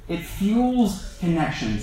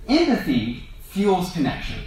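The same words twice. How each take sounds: First: Slow repeat leaning hard on "fuels"; slow down and punch "fuels"; stress on fuels. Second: Said in the usual way. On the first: Shown as a demonstration. Preacher repeating the point to the congregation, stressing "fuels".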